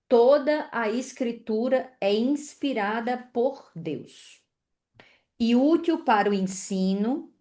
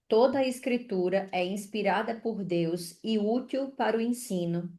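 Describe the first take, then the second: First: It is read slowly, with more pauses. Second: It is read at a normal pace.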